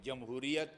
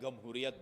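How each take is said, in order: First: The word begins with a 'j' sound. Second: The word begins with a 'g' sound.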